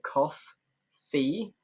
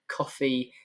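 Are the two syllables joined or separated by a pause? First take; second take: separated; joined. First: The two syllables are split by a pause. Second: The two syllables run together without a pause. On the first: "So awkward to say altogether" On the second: "if you smush it all together"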